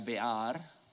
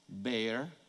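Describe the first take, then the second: First: It is pronounced the way a Spanish speaker would. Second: It is pronounced the way English speakers do.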